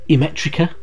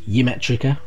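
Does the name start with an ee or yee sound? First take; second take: ee; yee. First: The name starts with a plain ee sound. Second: The name starts with a yee sound. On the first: The speaker calls it right. "Imetrica as instead of Yimetrica" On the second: The speaker calls it wrong. "as I've heard people pronounce it before"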